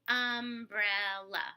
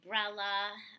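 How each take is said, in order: First: All three syllables are said in full. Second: The weak first syllable is left out. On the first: The speaker calls it right. "I go umbrella" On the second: The speaker calls it wrong. "some children will say brella"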